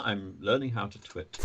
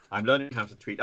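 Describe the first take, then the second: First: "twit" said like twit, short i; "twit" instead of tweet; wrong word. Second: "tweet" said with a long ee; corrected "tweet"; corrected word. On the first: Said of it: "Twit. Twi-, tweet". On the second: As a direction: land "tweet" cleanly with a long ee. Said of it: "Twi-, tweet". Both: Real, not acted.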